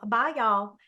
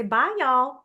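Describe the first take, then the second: First: Put-on Southern accent. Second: High, louder Southern "Bye, y'all"; cheerful Southern twang on goodbye; Southern accent. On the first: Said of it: "I'm like". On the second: Retold or imitated. Ending a Nortel phone call in a Southern accent. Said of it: "I would say".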